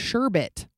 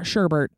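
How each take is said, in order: First: The final syllable has no r sound. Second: The final syllable has an r sound. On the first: The speaker calls it right. "The word sherbet" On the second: The speaker calls it wrong. "not sherbert. That's really upsetting"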